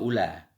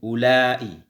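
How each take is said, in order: First: The word ends on a plain open vowel. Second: The vowel is lengthened and closed by a glottal catch. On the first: "ula bacanya dengan maksur" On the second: "yang menambahkan hamzah mamdudah"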